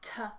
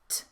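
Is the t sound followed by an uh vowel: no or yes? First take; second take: yes; no. First: The t sound is followed by an uh vowel. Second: The t sound is said without a following vowel. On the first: The speaker calls it wrong. "so that they sound like l and t" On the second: The speaker calls it right. "if we are sounding out in the correct way"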